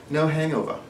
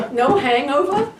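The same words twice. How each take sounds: First: Put-on a failed try at a British accent; slipping into a weak posh British accent; bad British accent. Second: Put-on laughing New Jersey accent; imitating a Jersey accent while laughing. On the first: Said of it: "that was a terrible accent". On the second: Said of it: "You sounded like you're from New Jersey".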